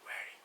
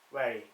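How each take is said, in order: First: The word is whispered without voice. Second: The word is spoken out loud.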